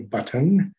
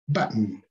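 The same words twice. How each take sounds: First: The middle t is clearly pronounced, English style. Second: The middle t is a glottal stop, American style.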